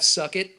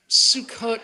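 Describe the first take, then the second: First: The word is said like English 'suck it'. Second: The word is said ending in an 'ot' sound. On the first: The speaker calls it wrong. "even the way he pronounces it" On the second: The speaker calls it right. "It's not how you say it"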